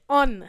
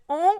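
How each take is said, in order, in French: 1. Il se termine par un son n bien prononcé. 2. Il se termine par une voyelle nasale, sans n. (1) "on va prononcer le N, on va dire on" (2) "au lieu de dire on"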